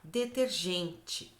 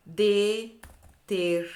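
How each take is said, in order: First: "Detergente" slow and softer; slow repeat. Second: "detergente" very slow and drawn out; stretched word. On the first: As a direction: repeat "Detergente" gently and slowly. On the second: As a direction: drag out "detergente" syllable by syllable. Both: Shown as a demonstration. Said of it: "pra gente comparar".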